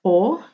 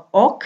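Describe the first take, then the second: First: 'o' with no final k; flowing 'o'. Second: 'ok' with the final k sounded; full 'ok'. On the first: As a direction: drop the k, just an open 'o'. ('o' tanpa bunyi k) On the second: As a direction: say 'ok' with a closing k. ('ok' dengan bunyi k di akhir) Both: Shown as a demonstration. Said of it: "bilangnya o daripada ok".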